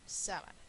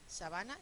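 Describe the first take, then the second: First: The stress is on the first syllable. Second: The stress is on the second syllable. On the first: "es esdrújula" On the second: "es una palabra llana"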